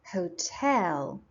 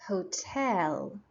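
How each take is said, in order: Both takes have the same delivery.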